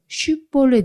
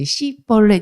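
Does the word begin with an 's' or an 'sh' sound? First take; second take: sh; s. First: The word begins with an sh sound. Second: The word begins with a tense s sound. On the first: The speaker calls it right. "쉿볼렛 해야 되는데" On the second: The speaker calls it wrong. "씨볼렛 이렇게 말을 했더라는 겁니다"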